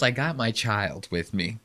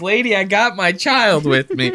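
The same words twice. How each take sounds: First: Soft, low, muttered under the breath; mumbled quote. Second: Scared dad. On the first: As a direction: mutter it quietly like a nervous dad. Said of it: "he goes". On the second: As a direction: squeak it out like a scared father with his kid. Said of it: "He goes". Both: Retold or imitated.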